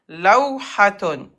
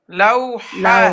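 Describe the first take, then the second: First: The word ends with the full -tun ending. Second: The word ends clipped on a breathy -ha. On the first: The word is said in the middle of speech. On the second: The word is said at a stop.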